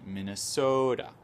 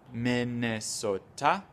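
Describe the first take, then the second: First: The syllables have an uneven stressed rhythm. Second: All syllables get even, equal weight. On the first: The speaker calls it right. "il y a un petit rythme" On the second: The speaker calls it wrong. "Comme en français, vous avez les syllabes"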